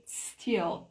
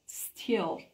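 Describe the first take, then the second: No difference in how they are said.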